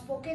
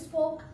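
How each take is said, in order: First: The final e is pronounced. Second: The final e is silent. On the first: "आप स्पोके नहीं बोलते" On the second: "ओ का sound जैसे स्पोक"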